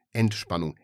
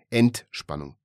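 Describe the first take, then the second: First: Said in the usual way. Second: ENT-spannung, first syllable punched louder and set apart; stress on ENT. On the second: A narrator's reading. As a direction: hit the ENT of Entspannung like a reproach. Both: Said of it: "Die Betonung auf der Silbe Ent".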